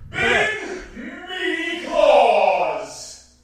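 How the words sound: It is said in a Smash announcer filter voice.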